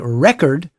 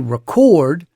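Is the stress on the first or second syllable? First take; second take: first; second. First: The stress is on the first syllable. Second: The stress is on the second syllable.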